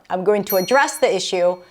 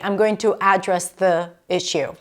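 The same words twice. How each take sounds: First: The stress is on the second syllable of address. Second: The stress is on the first syllable of address. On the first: The speaker calls it right. "The verb is only to address" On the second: The speaker calls it wrong. "You can't say"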